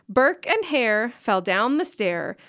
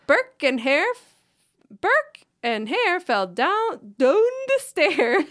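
First: It is read in the speaker's plain accent. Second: It is read in an attempted Scottish accent. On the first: "I'm just going to read the words as if it is not written clearly in a Scottish accent" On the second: "I said it in Scottish"

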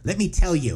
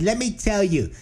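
First: It is said in his own voice. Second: It is said in a Bronx girl's voice.

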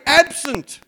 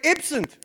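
First: It is said in the speaker's own Australian accent. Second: It is said in an imitated New Zealand accent.

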